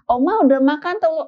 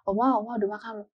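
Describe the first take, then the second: First: It is said in a very loud voice. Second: It is said in a louder voice.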